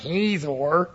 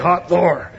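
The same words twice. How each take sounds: First: The opening H sound is plain and soft. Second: The opening H sound is harsh and throaty. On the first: The speaker calls it wrong. "it's not Hazor" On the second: The speaker calls it right. "you got to say it with a little spit coming out"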